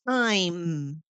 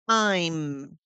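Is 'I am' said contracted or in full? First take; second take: contracted; contracted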